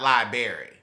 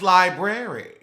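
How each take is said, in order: First: The word is said with a sound dropped. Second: The word is said with every sound in it. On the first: The speaker calls it wrong. "not library" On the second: The speaker calls it right. "Then you would know it's library"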